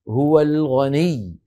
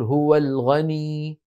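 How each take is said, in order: First: The final doubled letter is pressed firmly. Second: The final vowel is drawn out without pressure. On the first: The speaker calls it right. "لابد من الضغط" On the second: The speaker calls it wrong. "ولا يصح أن نقول هو الغني هكذا ممطوطة أو ممدودة مدا طبيعيا"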